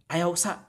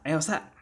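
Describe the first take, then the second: First: The particle keeps its first vowel, said as usa. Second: The first vowel is dropped; it ends in a glottal stop. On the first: "instead of saying ayaw usa" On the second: "drop that u and just say sa, right? With that glottal stop at the end"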